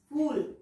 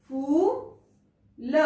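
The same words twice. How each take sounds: First: Said in the usual way. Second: फूल stretched slowly, long ऊ held; long drawn-out vowel. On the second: Shown as a demonstration. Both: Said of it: "long sound".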